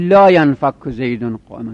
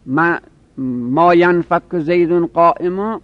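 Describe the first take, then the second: First: لا stressed as the correct particle; لا ینفک زیدون قائما, لا stressed; right form with لا. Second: Slow, ما leaned on as the form to drop; ما ینفک زیدون قائما, slowly, ما stressed; wrong form with ما. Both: Shown as a demonstration. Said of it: "بگیم لا ینفک زیدون قائما".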